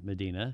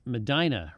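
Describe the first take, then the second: First: The middle vowel sounds like 'ee'. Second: The middle vowel sounds like 'eye'. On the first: This is how outsiders say the place name. The speaker calls it wrong. "rather than Medina" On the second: This is how local people say the place name. The speaker calls it right. "Medina is Medina"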